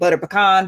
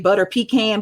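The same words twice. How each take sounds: First: Pecan is said with a more general pronunciation. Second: Pecan is said with a New Jersey pronunciation. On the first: This is an adjusted way for speaking in public. "now I'm in the public. I got to try like" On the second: This is how the speaker grew up saying it. "I'm from Jersey and I used to say butter pecan"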